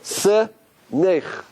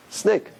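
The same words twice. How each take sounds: First: "Se-nech" in two separated pieces, ending in a throaty ch; "Se... nech", drawn apart syllable by syllable; split pronunciation. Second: Said in the usual way. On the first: Shown as a demonstration. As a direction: sound out "Se", pause, then "nech" with a Hebrew ch. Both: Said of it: "pronounce it a little differently".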